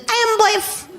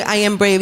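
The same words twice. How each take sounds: First: Very high toddler imitation; cute toddler voice. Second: Said in the usual way. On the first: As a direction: lisp it like a tiny child. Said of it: "that cute little toddler voice".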